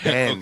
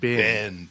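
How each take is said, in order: First: It is said without a Central Texas accent. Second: It is said with a Central Texas accent. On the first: The speaker calls it right. "say that correctly and not like you're from Central Texas" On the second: The speaker calls it wrong. "not bend"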